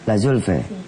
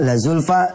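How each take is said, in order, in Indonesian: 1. Vokal terakhir condong ke bunyi 'e'. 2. Vokal terakhir adalah bunyi 'a' yang terbuka.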